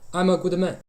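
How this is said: The voice is light, produced from the lips. "Chinese vocal position"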